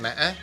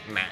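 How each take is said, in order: First: It is said with a broken tone. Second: It is said with the nặng tone. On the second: "yo nang"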